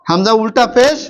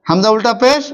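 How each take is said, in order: Both takes have the same delivery.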